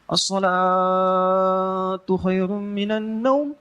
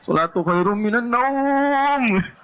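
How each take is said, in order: First: Salatu is stretched long and naum is short. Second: Naum is stretched long and salatu is short. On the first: Prayer is given more weight than sleep. The speaker calls it right. "Pendek naumnya" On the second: Sleep is given more weight than prayer. The speaker calls it wrong. "naum yang panjang"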